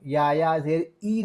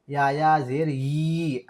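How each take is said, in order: First: ई as plain ee, no y at the start; wrong bare ई. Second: ई begun with a clear y, long yee; correct y-sound. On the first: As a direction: drop the y from ई. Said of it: "नहीं पढ़ना है". (ई को बिना य के पढ़ना) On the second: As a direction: put a y before ई. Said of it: "ऐसी आवाज़ आएगी". (ई को यी की तरह पढ़ना) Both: Shown as a demonstration.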